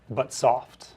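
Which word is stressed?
soft. The stress falls on the second word. The speaker calls it right. "less stress on the first syllable and more stress on the second"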